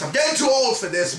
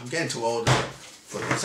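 First: Said in the usual way. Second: Put-on low, soft grumble of a tired old cop; a hint of a tired old man; weary movie line. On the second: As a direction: sigh it out like a worn-out veteran.

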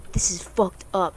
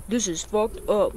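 First: Said in the usual way. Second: Slow, put-on echo of own words; mocking self-quote. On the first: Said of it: "Not, "This is fucked up". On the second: Player quotes own lame reaction, mocking. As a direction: repeat it slowly, making fun of yourself. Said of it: "I was gonna say".

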